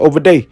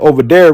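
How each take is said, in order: First: It is said in a Gullah Geechee accent. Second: It is said in a standard American accent. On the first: "we say over there" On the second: "Instead of saying over there"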